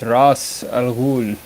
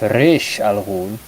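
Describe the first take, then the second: First: The first word is said as 'raz'. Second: The first word is said as 'rish'. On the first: The speaker calls it right. "It's Ras Al Ghul. Raz" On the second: The speaker calls it wrong. "someone told me it's Rish Al Ghul"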